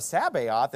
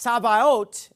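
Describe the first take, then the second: First: Sabaoth read naively, with "bay" in the middle; childhood misreading. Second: Sabaoth said slowly as sah-vah-OAT; correct pronunciation. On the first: Retold or imitated. Kid puzzling over King James spelling, misreading. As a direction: say Sabaoth as English spelling suggests, SAB-ay-oth. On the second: Shown as a demonstration. Pastor teaching how Sabaoth is pronounced, slowly. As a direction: sound out Sabaoth with open "ah" vowels and final "oat". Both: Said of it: "It's pronounced Sabaoth".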